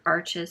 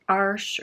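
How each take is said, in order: First: The name is said as two syllables. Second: The name is said as one syllable. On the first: This is the pronunciation most people use. "I always say Arches because that's what everyone else has said" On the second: This is the name's real pronunciation. "I think it's actually Arch"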